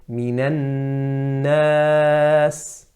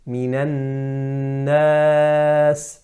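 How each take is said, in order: No difference in how they are said.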